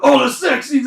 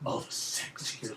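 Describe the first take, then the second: First: The phrase is said out loud, not whispered. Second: The phrase is said in a creepy whisper. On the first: "so you didn't go" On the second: "it makes it more creepy on your character"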